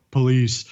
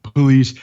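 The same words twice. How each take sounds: First: Flat, emotionless one-word line; deadpan. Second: Louder flat emotionless call; deadpan. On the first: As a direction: say it with zero emotion. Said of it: "completely deadpan go". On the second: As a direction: announce it with no feeling at all. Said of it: "no emotion whatsoever". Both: Retold or imitated.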